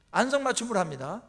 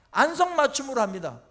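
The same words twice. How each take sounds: First: "안성맞춤으로" repeated quieter with a rising end; softer echo. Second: "안성맞춤으로" hit hard and loud, falling at the end; emphatic first statement. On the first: Preacher repeating "안성맞춤으로" softly to the congregation as a lifted echo. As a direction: echo "안성맞춤으로" gently, letting it lift. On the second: Preacher insisting to the congregation that God's testing fits exactly, "안성맞춤으로" stressed loud. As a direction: drive home "안성맞춤으로" with a firm louder fall. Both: Shown as a demonstration.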